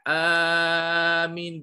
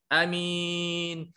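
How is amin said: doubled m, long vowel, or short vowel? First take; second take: long vowel; short vowel. First: The first vowel is drawn out long. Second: The first vowel is kept short. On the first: "bil mad" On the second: "bil qasri"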